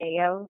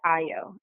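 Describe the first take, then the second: First: The name is said a non-traditional way. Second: The name is said the traditional Yoruba way. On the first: This is the parent's own form of the name. "but I pronounce it Ayo" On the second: This is the traditional form of the name. "traditionally is pronounced Ayo in Yoruba"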